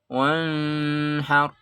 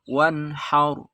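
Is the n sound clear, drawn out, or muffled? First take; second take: muffled; clear. First: The n is muffled and indistinct. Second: The n is crisp, clear and brief. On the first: The speaker calls it wrong. "Enggak boleh dibaca samar" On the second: The speaker calls it right. "Izhar artinya jelas"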